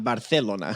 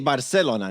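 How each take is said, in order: First: The c is a th sound. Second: The c is an s sound. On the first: This is how it is said in Spain. "not Barcelona" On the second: This is the speaker's own variety of Spanish. "so I say Barcelona"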